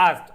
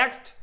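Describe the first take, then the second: First: "asked" with the long British a, said like "ɑːskt"; British pronunciation. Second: "asked" with the American flat a, said like "æskt"; American pronunciation. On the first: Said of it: "British pronunciation হচ্ছে". (British উচ্চারণে "asked", লম্বা খোলা আ) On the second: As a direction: say "asked" the American way, short front a. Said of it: "American pronunciation". (American উচ্চারণে "asked", ছোট চ্যাপ্টা আ) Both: Shown as a demonstration.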